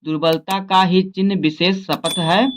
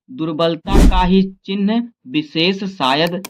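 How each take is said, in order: First: The right word "शपथ", said clearly after the slip; corrected take, landing on "शपथ है"; corrected reading. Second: Misreads the last word as शायद, says "शायद" instead of "शपथ"; the misread take, ending on "शायद" with a rising tone; slip of the tongue. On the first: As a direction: fixes it to "शपथ" and reads on. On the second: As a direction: stumble on "शायद" before the correction. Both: Real, not acted. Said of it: "sorry".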